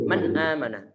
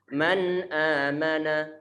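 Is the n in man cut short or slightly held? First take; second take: cut short; slightly held. First: The n in man is cut off abruptly. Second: The n in man is held slightly longer. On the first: The speaker calls it wrong. "Jadi nggak boleh" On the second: The speaker calls it right. "tapi ada penarikan sedikit suaranya"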